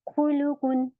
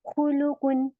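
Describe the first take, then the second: Both takes have the same delivery.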